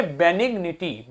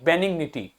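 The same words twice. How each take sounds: First: बेनिग्निटी slowly, syllable by syllable: be-nig-ni-ty; slow careful pronunciation. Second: Said in the usual way. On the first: Shown as a demonstration. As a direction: spell out बेनिग्निटी slowly for the class. (बेनिग्निटी धीरे-धीरे, हर अक्षर साफ़) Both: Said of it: "तो क्या पढ़ेंगे".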